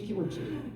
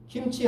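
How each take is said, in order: First: It is said with a Japanese pronunciation. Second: It is said with a Korean pronunciation. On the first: The speaker calls it wrong. "일본 사람은 발음 못하는 기호가 많잖아요" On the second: The speaker calls it right. "김치 하면"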